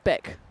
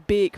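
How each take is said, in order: First: The vowel sounds like the one in 'beck'. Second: The vowel sounds like the one in 'beak'. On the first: The speaker calls it wrong. "rather than Beck" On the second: The speaker calls it right. "it'd be Beek rather than Beck, at least in North Germany"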